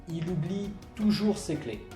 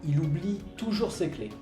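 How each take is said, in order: No difference in how they are said.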